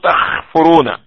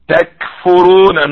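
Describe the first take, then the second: First: The consonant is a rasping kh sound. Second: The consonant is a plain k sound. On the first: The speaker calls it wrong. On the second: The speaker calls it right.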